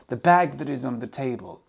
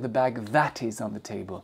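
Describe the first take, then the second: First: The word 'that' has a weak, reduced vowel. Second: The word 'that' has a full, strong vowel. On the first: The speaker calls it right. "on va très souvent utiliser la forme that" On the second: The speaker calls it wrong. "On ne va pas dire"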